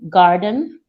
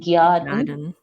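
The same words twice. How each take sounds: First: The g sound goes straight into the vowel. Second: A y glide follows the g sound. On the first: "garden would be" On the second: "would be garden"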